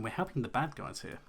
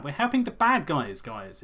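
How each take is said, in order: First: Said in the usual way. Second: BAD punched louder and higher; protesting to viewers, mock outraged; emphatic mock outrage. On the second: Real, not acted. Repeats the point with outrage.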